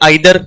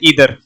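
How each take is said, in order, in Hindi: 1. यह शब्द 'eye' ध्वनि से शुरू होता है। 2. यह शब्द 'ee' ध्वनि से शुरू होता है। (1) "कई लोग बोलते हैं आइदर" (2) "कई बोलते हैं ईदर"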